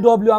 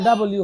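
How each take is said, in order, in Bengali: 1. এটি একটি সংক্ষিপ্ত শব্দ হিসেবে বলা হয়। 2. এটি দুটি পূর্ণ শব্দ হিসেবে বলা হয়। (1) "আমরা বলি ডব্লিউ ... এটা অশুদ্ধ" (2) "ডাবল ইউ হবে"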